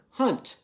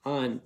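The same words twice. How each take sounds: First: Sounding out. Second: Said in the usual way. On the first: Shown as a demonstration. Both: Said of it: "What's my base word?".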